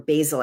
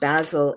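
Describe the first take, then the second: First: The word is said with an American pronunciation. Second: The word is said with a British pronunciation. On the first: "I guess you say in America" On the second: "I don't mean to be pretentious"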